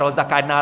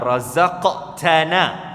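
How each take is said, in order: First: The cluster is simplified, giving 'rozakana'. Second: The 'qt' cluster is clearly pronounced. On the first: The speaker calls it wrong. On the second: The speaker calls it right.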